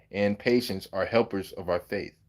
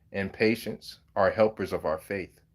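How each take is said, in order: Both takes have the same delivery.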